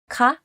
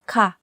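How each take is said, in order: First: The pitch of the word does not fall. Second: The pitch of the word falls. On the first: It is used to ask questions or call someone. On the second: It is used in general sentences and agreeing.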